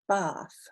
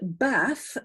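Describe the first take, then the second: First: The vowel is a long open 'ah' sound. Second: The vowel is a short 'a' as in bat. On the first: "in your accent, you'll say ah, you say bath" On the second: "that I don't say any differently from the vowel in the word bat"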